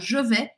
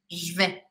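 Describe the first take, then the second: First: Both words are said in full, vowels kept. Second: The vowel of je is dropped, one syllable. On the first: "ao invés de ficar je vais" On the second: "eu vou falar je vais"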